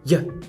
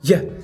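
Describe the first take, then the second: First: The vowel is reduced to a short schwa. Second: The same.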